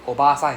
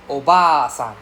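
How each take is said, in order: First: Oba-san with a short, quick BA; Oba-san without dragging the A. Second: Oba-san with a drawn-out BA; long A. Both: Shown as a demonstration. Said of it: "long sound and the short sound".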